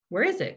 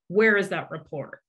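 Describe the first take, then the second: First: It sounds like an innocent, neutral question. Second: It sounds like an annoyed, demanding question.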